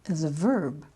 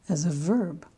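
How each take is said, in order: Both takes have the same delivery.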